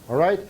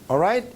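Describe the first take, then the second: Both takes have the same delivery.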